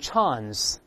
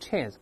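First: The vowel is a long open back 'ah'. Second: The vowel is a flat front 'a'. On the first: "咱英国人读成chance，发on 这声音" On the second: "美国人读成chance"

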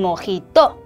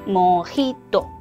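First: The stress is not on the middle syllable. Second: The stress is on the middle syllable. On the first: The speaker calls it wrong. "이렇게 읽으면 안 돼요" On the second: The speaker calls it right. "이를 살려서"

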